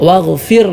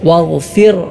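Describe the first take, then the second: Both takes have the same delivery.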